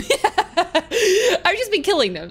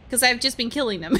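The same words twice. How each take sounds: First: Slow, laughing repeat; laughing admission, drawn out. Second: Said in the usual way. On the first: Real, not acted. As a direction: chuckle it out slowly. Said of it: "'Cause I've just been killing them".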